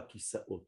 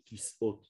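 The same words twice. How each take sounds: First: Kisaot with the extra a, the common error; the mistaken Kisaot; wrong Kisaot. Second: Kisot, short with no a, said clearly; the proper Kisot; correct Kisot. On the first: Teacher showing how Israelis say it wrongly, Kisaot. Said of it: "On dit pas". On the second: Teacher giving the right form, a clear Kisot. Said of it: "on dit". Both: Shown as a demonstration.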